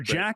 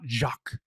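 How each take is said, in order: First: It sounds like English 'jack', with a short a. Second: It sounds like French 'zhahk', with a soft start. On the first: The speaker calls it right. "So Jack is good" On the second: The speaker calls it wrong. "not Jacques"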